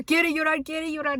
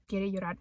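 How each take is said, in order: First: Louder, higher teasing chant of quiere llorar; teasing dad. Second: Said in the usual way. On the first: Retold or imitated. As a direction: chant it like a dad mocking his crying kid. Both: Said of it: "My dad comes out of nowhere".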